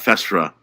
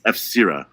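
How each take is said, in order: First: The name is run together as one word. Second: The letter F is said separately before the rest. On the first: The speaker calls it wrong. "It's not Festra or whatever" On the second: The speaker calls it right. "It's F Sira. Like some pretentious asshole"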